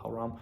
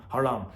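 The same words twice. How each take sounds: First: Haram? with an unsure rising tune, checking the word; questioning haram. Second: Haram. said with a firm falling tune, now sure; settled haram. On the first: Checking the religious word aloud, unsure rising haram. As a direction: ask Haram as if testing the word. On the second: Settling the word for viewers, firm falling haram. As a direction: land Haram as the answer. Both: Real, not acted. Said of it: "What is it? Halal?".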